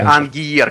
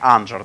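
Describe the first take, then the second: First: It begins with an 'ang' sound. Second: It begins with an 'anj' sound. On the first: "и не Ангиер" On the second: "а не Анджер"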